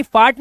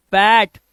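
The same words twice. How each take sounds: First: फाट with a flat open "aa" vowel, the wrong way; wrong vowel demo. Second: फैट with the short front "a" of fat, said louder; correct vowel demo. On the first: Teacher showing the wrong reading फाट, open "aa" vowel. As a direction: say फाट with a long "aa", as the mistake. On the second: Teacher giving the right reading फैट with the "æ" vowel. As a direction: stress फैट clearly with the "æ" vowel. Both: Shown as a demonstration. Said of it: "फाट नहीं".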